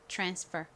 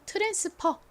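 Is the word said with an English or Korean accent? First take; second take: English; Korean. First: It is said with English-style sounds. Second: It is said with Korean-style syllables.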